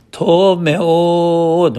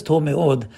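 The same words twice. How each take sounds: First: TOV ME'OD held long, high and sustained; drawn-out emphasis. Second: Said in the usual way. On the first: Acted. Rabbi quoting the verse about the world, drawn-out emphasis. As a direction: stretch both words out high, almost intoned. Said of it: "That's the way he said it".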